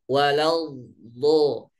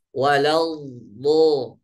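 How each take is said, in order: Both takes have the same delivery.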